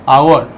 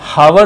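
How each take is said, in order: First: The word begins directly with a vowel. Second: The word begins with an h sound. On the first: The speaker calls it right. "H silent है, इसलिए इसका pronunciation है आवर" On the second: The speaker calls it wrong. "इसको हावर नहीं पढ़ेंगे"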